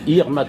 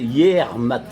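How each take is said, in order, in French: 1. Les premières syllabes sont raccourcies et liées entre elles. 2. Chaque syllabe est prononcée en entier. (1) "Mais Irmat, on dit" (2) "Prononcé intégralement"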